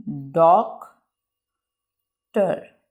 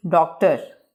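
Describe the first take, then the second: First: doctor as doc, long pause, ter; very slow two-part doctor; broken into syllables. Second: Said in the usual way. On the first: Shown as a demonstration. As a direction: leave a long gap inside doctor. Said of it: "word को रुक रुक के बयान करना". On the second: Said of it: "इसको pronunciate कर लेते हैं".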